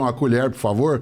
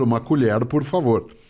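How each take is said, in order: First: It is said in a caipira accent, retroflex R. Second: It is said in a neutral Brazilian accent.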